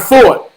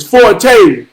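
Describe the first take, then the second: First: "Fort" as one short syllable with a hard final T. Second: "Forte" as for-TAY, long final vowel; two-syllable Forte. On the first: Teacher rejecting his pronunciation, "Fort" as one syllable. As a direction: say "Fort" like the army post, no TAY. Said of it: "It's not Fort". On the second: Teacher giving her version, "Forte" as for-TAY. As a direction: say "Forte" with an added TAY ending. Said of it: "You pronounce your name". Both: Retold or imitated.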